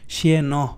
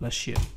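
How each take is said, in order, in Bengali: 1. শেষের n আলাদা একটি শব্দাংশ হিসেবে উচ্চারিত হয়। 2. শেষের n স্বরধ্বনির সাথে মিশে যায়।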